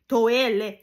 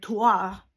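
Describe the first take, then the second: First: It is said with Japanese sounds. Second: It is read with French spelling sounds. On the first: The speaker calls it right. "en réalité, on dit toele" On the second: The speaker calls it wrong. "il y a des fortes chances qu'il prononce comme toire"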